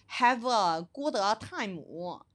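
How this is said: It is said with the group's exaggerated accent.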